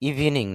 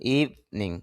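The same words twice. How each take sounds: First: The first vowel is short. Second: The first vowel is drawn out long. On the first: The speaker calls it wrong. "ইভিনিং না" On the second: The speaker calls it right. "ইভিনিং একটু টান হবে"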